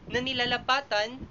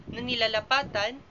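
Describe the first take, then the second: Both takes have the same delivery.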